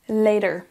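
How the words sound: The middle consonant sounds like a D. "les Américains vont dire later"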